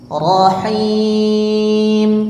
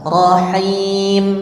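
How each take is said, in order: First: The long vowel is held moderately long. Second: The long vowel is held only briefly. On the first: "empat kali kasroh" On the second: "Dua kali kasroh"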